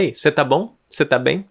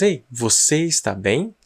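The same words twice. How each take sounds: First: Quick contracted você tá bem; shortened form. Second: Slow careful full form você está bem. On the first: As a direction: clip it to tá bom, tá bem, casually. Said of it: "tem gente que fala". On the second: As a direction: say Ei, você está bem with every syllable, slowly. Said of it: "A gente não fala às vezes". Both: Shown as a demonstration.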